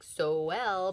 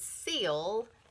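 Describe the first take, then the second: First: It is said as two syllables, so-el. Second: It is said as one syllable, seal. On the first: The speaker calls it wrong. "we want to say like so well" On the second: The speaker calls it right. "but it's seal"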